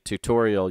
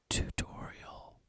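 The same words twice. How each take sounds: First: The word is said in a normal voice. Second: The word is whispered. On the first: "instead of saying tutorial" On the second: "you went tutorial, just like that"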